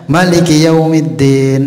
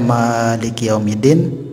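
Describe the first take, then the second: First: The vowel after the m is short. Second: The vowel after the m is long. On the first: "nggak dipanjangkan mimnya itu" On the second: "mimnya itu dipanjangkan"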